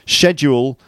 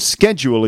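First: The word is said with a British pronunciation. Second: The word is said with an American pronunciation. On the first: "Schedule is the British way of saying it" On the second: "schedule is the way that they say it in the USA"

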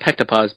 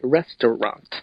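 First: The letters are read with English sound values. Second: The letters are read with Russian sound values. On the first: The sign is misread as if it were English. The speaker calls it wrong. "in English they would have been pektapas" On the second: The sign is read correctly as Russian. The speaker calls it right. "but in Cyrillic, restaurant"

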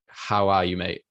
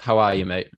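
First: It is asked in a caring, meaningful way. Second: It is asked in a quick, offhand way.

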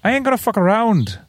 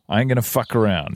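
First: It is read in an Irish accent. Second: It is read in the speaker's normal accent.

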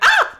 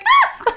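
First: The cry is at a lower pitch. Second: The cry is at a higher pitch.

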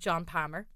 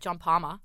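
First: The name is said in an Irish accent. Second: The name is said in an Australian accent. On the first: The speaker calls it wrong. "It doesn't sound as good in the Irish" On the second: The speaker calls it right. "to say it in the Aussie accent"

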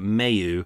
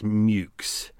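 First: The name ends without a ks sound. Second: The name ends with a ks sound. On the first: This is the French-style pronunciation. "I'm going to go with the French pronunciation of it" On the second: This is the actual original pronunciation. "I know that Mayhew is actually pronounced Mukes"

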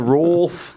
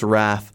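First: The vowel is an 'o' sound. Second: The vowel is not an 'o' sound. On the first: The speaker calls it wrong. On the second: The speaker calls it right.

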